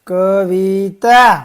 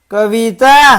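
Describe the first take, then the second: First: Kavita stretched out, each syllable held. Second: Kavita louder, with shorter syllables; loud drill word. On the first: First slow reading of the word list. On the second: Teacher leads children to repeat after them, loudly. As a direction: call out Kavita for the class to echo. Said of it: "બોલજો જોરથી". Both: Shown as a demonstration.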